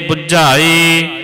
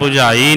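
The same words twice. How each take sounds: First: The word is said heavily, with added weight. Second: The word is said lightly, without weight. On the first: The speaker calls it right. "भारा करके पढ़ना है" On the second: The speaker calls it wrong. "बुझाई नहीं कहना"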